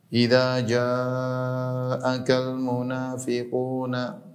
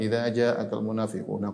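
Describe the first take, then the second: First: The words are recited slowly with long drawn vowels. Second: The words are recited quickly with short vowels. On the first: It feels long and heavy for the congregation. "kalau dibaca dengan tartil ya, dengan tajwid yang panjang-panjang" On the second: It does not feel heavy for the congregation. "kalau bacanya cepat"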